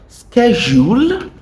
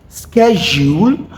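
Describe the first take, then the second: Both takes have the same delivery.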